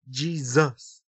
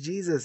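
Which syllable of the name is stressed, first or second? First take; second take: second; first. First: The stress is on the second syllable. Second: The stress is on the first syllable.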